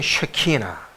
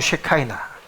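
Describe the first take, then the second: First: The middle syllable has an 'ee' vowel. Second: The middle syllable has an 'eye' vowel. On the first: This is the Hebrew pronunciation. "히브리어는" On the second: This is the English pronunciation. "영어로는"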